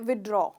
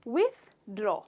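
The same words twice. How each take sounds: First: The th sound is dropped from the word. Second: The th sound is clearly heard in the word. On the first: The speaker calls it wrong. "इसमें हम थ का sound लेना भूल जाते हैं" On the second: The speaker calls it right. "Correct pronunciation है"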